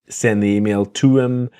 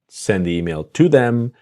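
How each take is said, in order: First: The word them is reduced to em. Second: The word them is said in full.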